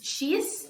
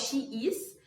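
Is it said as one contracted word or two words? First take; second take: one word; two words. First: It is said as one contracted syllable. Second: It is said as two separate words. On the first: The speaker calls it right. "she's e não she is" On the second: The speaker calls it wrong. "e não she is"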